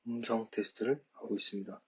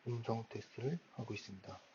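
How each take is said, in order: First: The voice sounds loud but distorted. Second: The voice sounds somewhat far away and quiet. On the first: "소리는 굉장히 크게 들리고 명확하게 들리긴 합니다만 좀 목소리에 왜곡이 있었기" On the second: "조금 멀리서 들리는 듯한 느낌이 있고"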